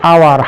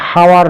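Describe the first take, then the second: First: The word starts with a vowel, no h sound. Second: The word starts with an audible h sound. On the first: The speaker calls it right. "এখানে উচ্চারণ হচ্ছে আওয়ার" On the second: The speaker calls it wrong. "হাওয়ার নয়"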